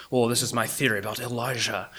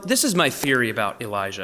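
First: Imitated Scottish preacher's accent. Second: Said in the usual way. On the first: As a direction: put on a light Scottish accent, a little softer. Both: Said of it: "he did in that cool Scottish accent".

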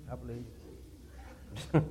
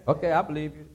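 First: Under the breath, nearly silent; quiet. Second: Said in the usual way. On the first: Acted. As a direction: drop it to a soft aside. Repeats it teasingly, almost silently.

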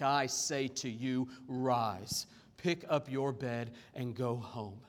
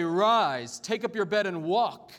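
First: Low, slow, measured authority; solemn command. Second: Forceful, ringing quoted command; loud command. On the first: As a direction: command it gravely, lowering the pitch. Jesus' actual command to paralytic. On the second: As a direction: proclaim it loudly as a challenge. Jesus' hypothetical command, read aloud. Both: Acted.

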